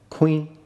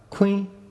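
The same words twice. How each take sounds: First: The word is said on a mid tone. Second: The word is said on a high tone. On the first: It means grindstone. "mid-tone, means grindstone" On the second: It means knife. "high tone, means knife"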